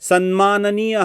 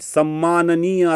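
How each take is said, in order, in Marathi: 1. या जोडाचा उच्चार m च्या आधी n असा होतो. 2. या जोडाचा उच्चार दुहेरी m असा होतो. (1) "सन्माननीय हा शब्द नीट उच्चारू शकत नाहीत" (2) "सम्माननीय असा शब्द उच्चारतात"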